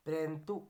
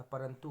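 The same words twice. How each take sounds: First: परंतु said 'prentu'; squashed first syllable. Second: Said in the usual way. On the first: Shown as a demonstration. Teacher rejecting a form, परंतु as 'prantu'. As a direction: join p and r at the start of परंतु. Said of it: "नहीं होता". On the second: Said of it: "होता है".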